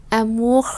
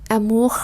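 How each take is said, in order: The two takes are said the same way.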